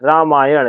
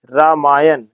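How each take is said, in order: First: रामायण with a long रा at the start; teacher gives the correct रामायण; correct form said. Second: रामायण with the wrong vowel, as a mistake; teacher voices the wrong रामायण; wrong form said. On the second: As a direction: say रामायण as the error to avoid. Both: Shown as a demonstration. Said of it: "रा होना चाहिए".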